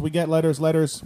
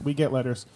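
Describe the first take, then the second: First: Sung-out "We get letters, letters" with "letters" rising and falling; half-sung catchphrase; sung, catchphrase sing-song. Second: Flat repeat stressing "get". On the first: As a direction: croon "letters" like a show jingle. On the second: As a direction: lean on "get" and drop the rest. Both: Shown as a demonstration.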